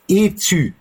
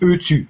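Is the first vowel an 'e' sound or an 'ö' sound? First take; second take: e; ö. First: The first vowel is an unrounded 'e' sound. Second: The first vowel is a rounded 'ö' sound. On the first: The speaker calls it right. "die Abkürzung heißt EZÜ" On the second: The speaker calls it wrong. "nicht ÖZÜ"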